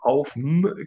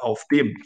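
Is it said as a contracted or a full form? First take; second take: contracted; full. First: The words are merged into one short syllable. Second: The words are said as two full syllables. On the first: The speaker calls it wrong. "aufm klingt nicht so toll" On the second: The speaker calls it right. "Man sagt normalerweise auf dem"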